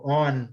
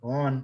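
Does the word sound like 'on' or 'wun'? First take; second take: on; on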